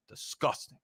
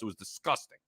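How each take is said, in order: First: Breathy whisper of disgust. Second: Low, soft, drained disgust; quiet disgust. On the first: Host repeating his verdict on the loss, whispered. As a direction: hiss the word out in revulsion. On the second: Host sighing over the Baltimore blowout, quietly. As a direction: let it sink with distaste. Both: Real, not acted.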